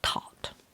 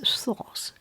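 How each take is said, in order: First: The name begins with a plain 't' sound. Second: The name begins with a 'th' sound. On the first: Egyptian likely had no th sound. "I doubt if there is a th sound in Egypt, so I choose to pronounce it Thoth" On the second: This is the English way of saying it. "in English way, um, it is Thoth"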